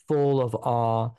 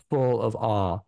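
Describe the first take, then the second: No difference in how they are said.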